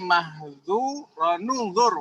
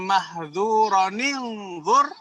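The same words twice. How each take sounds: First: The linking vowel between the words is u. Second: The linking vowel between the words is i. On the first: "ini menjadi" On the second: "Kalau kita bacanya"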